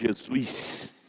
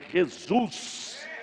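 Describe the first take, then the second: First: It is said in a plain local accent. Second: It is said in a put-on carioca-like accent. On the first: The speaker calls it right. "Ele não chama Jesus" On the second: The speaker calls it wrong. "ele chama Jesus"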